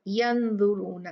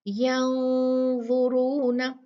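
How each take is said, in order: First: The n is pronounced clearly and fully. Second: The n is hidden in a nasal hum. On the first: The speaker calls it wrong. "हम ये नहीं करे" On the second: The speaker calls it right. "इख्फा कहते हैं नून को छुपाना, उसको साफ ना पढ़ना बल्कि उस पर गुन्ना करना"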